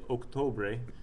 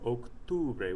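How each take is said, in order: First: The second vowel is an 'o' sound. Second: The second vowel is a 'u' sound. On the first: The speaker calls it wrong. "you've never heard your teacher say Octobre" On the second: The speaker calls it right. "Octubre with a U in there"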